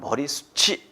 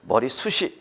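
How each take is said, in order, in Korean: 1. 마지막 모음 앞의 자음은 ch처럼 납니다. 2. 마지막 모음 앞의 자음은 t처럼 납니다. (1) "이렇게 해줘야 되는 것이죠" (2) "이건 잘못된 것이고요"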